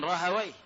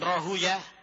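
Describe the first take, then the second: First: The name ends with the sound 'awayh'. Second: The name ends with the sound 'uyah'. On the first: "ada yang mengatakan Rahawayh" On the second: "ada sebagian menyebutkan Rahuyah"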